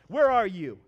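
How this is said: It is said in a harsh, angry tone. The caller is upset with the person for doing wrong. "that harsh, angry dad that's always upset with you"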